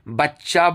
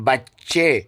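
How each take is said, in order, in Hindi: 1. यह शब्द 'a' स्वर पर खत्म होता है। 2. यह शब्द 'e' स्वर पर खत्म होता है। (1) "बच्चा बोलते हैं उर्दू में" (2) "लेकिन फारसी में उसको हे पढ़ते हैं"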